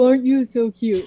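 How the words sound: The voice is pitched low. A bat talks sweetly to its pup. "inflection goes down"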